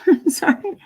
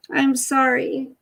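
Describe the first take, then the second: First: Breathy giggling whisper of sorry; laughing whisper. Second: Said in the usual way. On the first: Real, not acted. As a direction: whisper it through a laugh to the dog. Apologising to startled dog.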